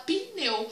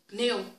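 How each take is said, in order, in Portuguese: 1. Ouve-se uma vogal i extra depois do p. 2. O p passa rápido para o n, sem vogal. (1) "como se tivesse um i" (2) "Eu falo pneu, pneu. É rápido"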